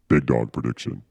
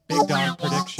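First: It is said in a deep voice. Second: It is said in a normal voice.

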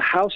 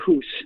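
First: The vowel sounds like 'ow'. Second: The vowel sounds like 'oo'.

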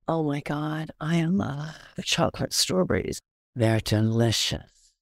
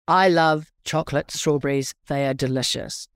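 First: It is said with excited, enthusiastic feeling. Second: It is said plainly, as a simple fact.

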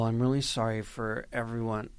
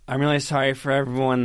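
First: It is said in the speaker's natural voice. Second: It is said in an imitated, put-on voice.

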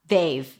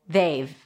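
First: Have is reduced to a v sound. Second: Have is reduced to a v sound.

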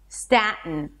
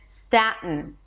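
No difference in how they are said.

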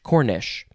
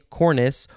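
First: The word ends with an sh sound. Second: The word ends with an s sound. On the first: "or you can pronounce it Cornish with an S-H" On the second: "C-O-R-N-I-C-E, cornice"

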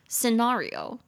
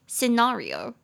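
First: It is said with a British accent. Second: It is said with a British accent.

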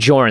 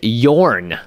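First: The name begins with a J sound. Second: The name begins with a Y sound. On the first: The speaker calls it wrong. "Not Jorn, apparently" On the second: The speaker calls it right. "why did you choose Yorn?"

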